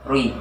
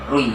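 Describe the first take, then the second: First: The syllable is rounded with gathered lips. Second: The same.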